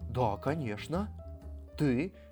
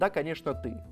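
First: It is said with mocking sarcasm. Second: It is said sincerely, as a real answer.

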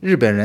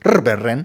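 First: It is said in standard Mandarin. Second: It is said with a Uyghur-style foreign accent.

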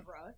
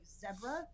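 First: It is said in an American accent. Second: It is said in an English accent.

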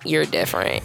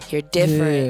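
First: The phrase is said in a scornful, disapproving tone. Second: The phrase is said in an admiring, impressed tone. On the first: Being different is a flaw. "you hear the inflection behind you're different in a bad way" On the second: Being different is something special. "when you move out here, it's like, oh, you're different"

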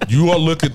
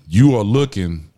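First: It is said in his normal speaking voice. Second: It is said in a put-on deep voice.

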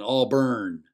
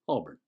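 First: The ending is emphasized and sounds like burn. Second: The ending is soft and barely noticeable. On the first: The speaker is not from around here. The speaker calls it wrong. "pronounce it with the burn" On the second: The speaker is a local. The speaker calls it right. "With the soft ending, the listener hardly noticed it"

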